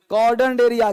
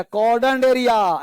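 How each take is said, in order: First: Said in the usual way. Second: कॉर्डन area drawn out slowly, each syllable clear; slow memory hook. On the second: Shown as a demonstration. Teacher giving the class a memory trick, said slowly. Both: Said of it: "ऐसे याद कर लो".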